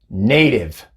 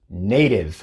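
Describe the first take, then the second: Both takes have the same delivery.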